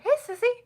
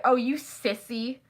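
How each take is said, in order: First: High-pitched affectionate hello; lilting, much higher greeting; friendly nickname greeting. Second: Sissy as a light insult; mild put-down in an imitated voice; mild mock taunt. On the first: Retold or imitated. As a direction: call her sweetly by a pet name. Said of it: "they would call each other Sissy". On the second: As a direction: lightly tease someone as a wimp. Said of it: "Not like that".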